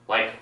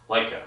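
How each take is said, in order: No difference in how they are said.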